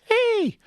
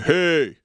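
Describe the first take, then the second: First: It is said in a small, sweet voice. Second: It is shouted in a normal voice.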